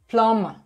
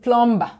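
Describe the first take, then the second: First: The b sound is silent. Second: The b sound is pronounced.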